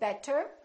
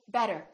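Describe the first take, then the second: First: The middle consonant is a strong, full stop. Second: The middle consonant is a quick, light tap. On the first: The speaker calls it wrong. "we don't say better" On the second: The speaker calls it right. "It's a real quick r"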